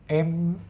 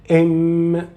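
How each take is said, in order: First: The hum is muffled with the nose closed. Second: The hum comes out clearly through the nose. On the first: "the sound is not clear" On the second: "Very clear sound"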